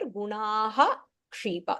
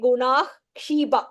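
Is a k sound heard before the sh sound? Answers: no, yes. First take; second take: yes; no. First: A clear k sound comes before the sh. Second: The k is dropped, leaving only sh. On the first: The speaker calls it right. "here alone we say the gunaha and then kshiba, so that we say the iksha" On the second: The speaker calls it wrong. "So only the shakaraha without the ik"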